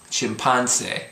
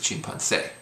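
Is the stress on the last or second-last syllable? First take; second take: second-last; last. First: The stress is on the second-last syllable. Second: The stress is on the last syllable. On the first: The speaker calls it wrong. "is what it would be without the accent" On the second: The speaker calls it right. "but it's"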